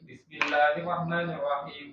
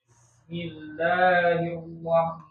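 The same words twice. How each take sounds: First: It is recited at a fast pace. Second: It is recited at a slow pace.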